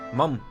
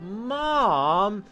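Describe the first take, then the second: First: The word is short and plain. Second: The word is drawn out and whiny. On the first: "but most of it it's mum" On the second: "you mean it like to draw it out, like you really want something, or like you're mad about something"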